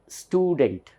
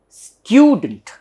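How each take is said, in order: First: The first syllable sounds like 'stoo'. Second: The first syllable sounds like 'styoo'. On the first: The speaker calls it wrong. "generally we all say student" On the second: The speaker calls it right. "it should be pronounced as student ... there is year here"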